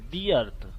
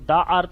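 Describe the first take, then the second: First: 'The' is said with a long 'thee' sound. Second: 'The' is said with a short 'thuh' sound. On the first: The speaker calls it right. "इसका sound दी earth" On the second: The speaker calls it wrong. "इसको द earth नहीं पढ़ेंगे"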